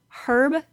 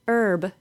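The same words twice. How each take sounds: First: The word begins with an audible H sound. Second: The word begins with no H sound. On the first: It is a person's name. "if it's a name, usually short for Herbert, we do say the H sound" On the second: It is a plant. "native English speakers from the United States don't say the H sound"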